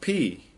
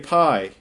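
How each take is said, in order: First: The word sounds like the letter P. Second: The word rhymes with 'eye'. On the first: It is the original Greek pronunciation. "really, it's pronounced P" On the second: It keeps the Greek letter apart from the English one. "We like to say pi"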